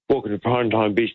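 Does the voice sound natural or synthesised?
natural. It is said in a plain natural voice.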